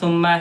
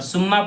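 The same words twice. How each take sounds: First: The word begins with a soft th sound. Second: The word begins with a plain s sound. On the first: The speaker calls it right. "से पढ़ना" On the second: The speaker calls it wrong. "सुम्मा पढ़ेंगे ... तो गलत हो जाएगा"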